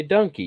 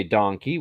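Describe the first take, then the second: First: Donkey with a short "uh" vowel, dunkey; our donkey. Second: Donkey with an open "dahn" vowel, tahn-key; their donkey. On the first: Michigan guy showing his own donkey, "dunkey". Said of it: "we say donkey". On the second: Michigan guy mimicking how others say donkey, "dahnkey". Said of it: "you say donkey". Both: Shown as a demonstration.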